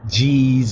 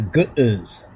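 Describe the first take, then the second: First: The word is said without a middle break. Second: The word has a break in the middle. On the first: The speaker calls it wrong. "Most of them even mispronounce the Ethiopic language" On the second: The speaker calls it right. "when it's actually G'uz. That is the pronunciation"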